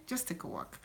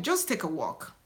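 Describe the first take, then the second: First: Repeated in a soft whisper. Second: Said in the usual way. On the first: Real, not acted. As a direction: whisper it as a gentle nudge.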